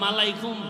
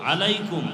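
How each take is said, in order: First: The word begins with an m sound. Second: The word begins with a vowel sound. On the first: The speaker calls it wrong. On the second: The speaker calls it right.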